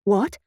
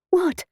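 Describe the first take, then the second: First: Understated alarm, rising question; a touch of alarm at the usual pitch. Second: High, sharp-falling exclamation; mild shout in a raised pitch. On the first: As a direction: ask it with a small rise of worry. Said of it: "I said in alarm". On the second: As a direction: call it out high, dropping at the end. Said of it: "shouted Simone". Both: A narrator's reading.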